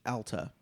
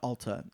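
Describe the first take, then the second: First: The first vowel is an A sound. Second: The first vowel is not an A sound. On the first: The speaker calls it right. "It is pronounced Alta. It is an A" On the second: The speaker calls it wrong. "It is not Alta"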